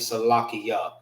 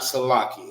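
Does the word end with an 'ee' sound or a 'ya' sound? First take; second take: ya; ee. First: The word ends with a 'ya' sound. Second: The word ends with an 'ee' sound. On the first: The speaker calls it right. "It's actually Salakia" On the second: The speaker calls it wrong. "This is not Salaki"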